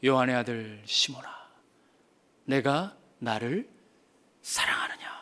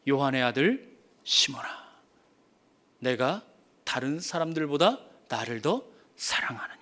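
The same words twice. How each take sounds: First: Tender whisper. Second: Low, soft, ending in a whisper; tender question. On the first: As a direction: lean in and whisper the question. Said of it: "쓱 뒤돌아보시더니". (낮고 느리게, 속삭이며 묻듯) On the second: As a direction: ask gently, almost whispering. Jesus quietly asks Peter. (낮고 부드럽게, 끝은 속삭이듯) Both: Acted.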